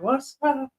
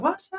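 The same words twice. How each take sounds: First: It is said quietly with weak energy. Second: It is said loudly with strong energy.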